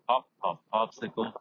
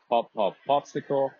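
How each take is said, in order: First: Strong wind noise is heard behind it. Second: Only a little wind noise is heard behind it. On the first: "it is pretty windy" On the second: "Tiny bit of wind"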